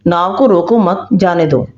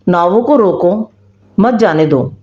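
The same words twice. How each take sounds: First: "नाव को रोको मत" as one phrase, pause, then "जाने दो"; pause after मत. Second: "नावों को रोको", pause, then "मत जाने दो" together; pause before मत. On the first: Akbar's written order to let boats pass, pause after मत. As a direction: keep मत with रोको, break before जाने दो. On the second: Munshi's twisted order to stop boats, pause before मत. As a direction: break after रोको, join मत to जाने दो. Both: A narrator's reading. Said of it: "इस थोड़ी सी हेरफेर".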